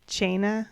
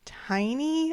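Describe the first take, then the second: First: The name starts with a ch sound. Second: The name starts with a t sound. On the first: The speaker calls it right. "how to pronounce it in actual Gaelic, and it's like Chaina" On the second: The speaker calls it wrong. "I am absolutely positive that's not how it's supposed to be pronounced"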